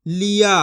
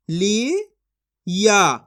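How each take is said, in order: First: Said in the usual way. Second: ली and या spoken as two separate syllables with a pause between. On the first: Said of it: "तो मिलके बन जाएगा". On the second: Shown as a demonstration. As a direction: split ली from या, then stop. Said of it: "एक एक अक्षर का उच्चारण करके पढ़ रहा हूँ". (ली और या अलग-अलग, बीच में रुककर)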